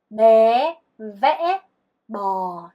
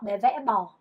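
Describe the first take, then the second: First: The phrase is said at a slow pace. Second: The phrase is said at a fast pace.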